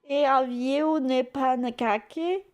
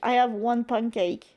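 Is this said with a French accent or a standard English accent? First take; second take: French; standard English. First: It is said with a strong French accent. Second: It is said with a standard English accent.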